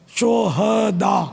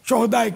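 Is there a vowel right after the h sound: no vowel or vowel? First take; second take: vowel; no vowel. First: The h sound is followed by an a vowel. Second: The h sound has no vowel after it. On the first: It means martyrs. The speaker calls it right. "हा को साकिन नहीं पढ़ेंगे बल्कि हा पर ज़बर पढ़ेंगे" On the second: It means scoundrels. The speaker calls it wrong. "तो ये तलफ़ुज़ गलत है"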